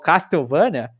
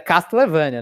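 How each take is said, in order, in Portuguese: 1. O nome é lido com sons do português brasileiro. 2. O nome é lido com sons do inglês. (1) "isso é outra coisa que eu falo errado sempre. Eu falo Castlevania" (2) "mas é Castlevania, né, que se lê isso aí"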